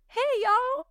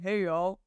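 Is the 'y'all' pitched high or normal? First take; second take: high; normal. First: The y'all jumps up high in pitch. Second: The y'all stays at normal pitch.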